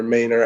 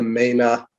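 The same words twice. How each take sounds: First: Said in the usual way. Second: Maina with dropped r, ending in ah; Maine accent. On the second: Shown as a demonstration. Explaining the Maine accent, Maina with dropped r. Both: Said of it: "the Boston or Mainer accent".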